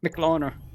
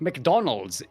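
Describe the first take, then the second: First: It is said in a Singaporean English accent. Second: It is said in a standard English accent. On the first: "So it's like so it's just McLauner" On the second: "McDonald's is very difficult because of the like the uh, the position of the L"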